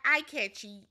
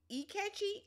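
First: The name begins with an 'eye' sound. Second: The name begins with an 'ee' sound. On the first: The speaker calls it wrong. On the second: The speaker calls it right.

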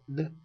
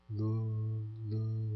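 First: It is a clear, full L sound. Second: It is a drawn-out, dragged R sound. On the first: "L 그러면 르 완전한 리을 발음인데요" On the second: "얘는 르 이렇게 해서 끄는 발음이죠"

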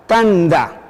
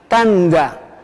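No difference in how they are said.

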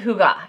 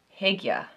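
First: The first syllable has an oo vowel. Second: The first syllable has an ih vowel. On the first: "I'm a Southern Texan, so I say hoo-gah" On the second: "I think a few of you say hig-yuh"

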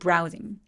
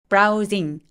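First: The first syllable is strong, the second weakened. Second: Both syllables are said with equal force. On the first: The speaker calls it right. "강세 부분만 앞으로 밀듯이 울림을 주시고 나머지는 힘을 좀 빼주시는" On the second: The speaker calls it wrong. "browsing 아니고"

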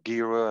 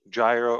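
First: The word is said the local Greek way. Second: The word is said the usual English way.

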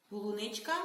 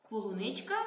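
Both takes have the same delivery.

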